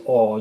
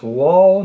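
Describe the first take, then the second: First: "all" opening straight on the vowel; modern w-less pronunciation. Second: "wall" opening on a clear w glide; old reading "wall", w sound kept; older w pronunciation. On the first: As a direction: say "all" with the w dropped. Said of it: "now it's pronounced all". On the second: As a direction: start "wall" with rounded w. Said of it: "used to be pronounced wall". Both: Shown as a demonstration.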